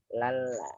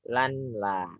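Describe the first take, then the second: First: The n merges into a doubled l sound. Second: The n is kept separate before the l. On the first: The speaker calls it right. "tapi lala" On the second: The speaker calls it wrong. "Jadi tidak dibaca lan la gitu ya"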